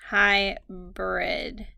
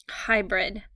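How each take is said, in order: First: "Hybrid" stretched slowly into two syllables. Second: Said in the usual way. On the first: Shown as a demonstration. Teacher sounding out the word for spellers, "Hybrid" slow and segmented. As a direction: draw out both syllables of "Hybrid".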